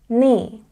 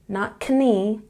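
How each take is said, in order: First: The K at the start is silent. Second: The K at the start is pronounced. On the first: The speaker calls it right. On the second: The speaker calls it wrong.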